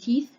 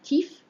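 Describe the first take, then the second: First: The word ends with a TH sound. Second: The word ends with an F sound. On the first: "as in teeth" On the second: "It'd be substituted by an F sound"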